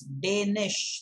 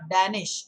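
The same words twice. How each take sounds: First: The first vowel sounds like 'day'. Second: The first vowel does not sound like 'day'. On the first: The speaker calls it right. "it's Danish, like day and night, day, Danish" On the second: The speaker calls it wrong. "it's not Danish"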